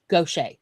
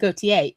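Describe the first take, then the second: First: It is said with local Mississippi pronunciation. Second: It is said with French pronunciation. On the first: The speaker calls it right. "It is pronounced Gaucher" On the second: The speaker calls it wrong. "it is not pronounced Gautier"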